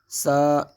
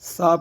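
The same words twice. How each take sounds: First: The consonant has a sharp whistling hiss. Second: The consonant is soft without any whistling hiss. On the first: It turns into a different letter. The speaker calls it wrong. "अगर सीटी के साथ अदा करेंगे तो ये बनेगा सा सा सा, यानी सीन की आवाज़ इसमें पैदा होगी" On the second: It keeps the intended letter. The speaker calls it right. "बल्कि सा की आवाज़ को हम ज़ाहिर करेंगे"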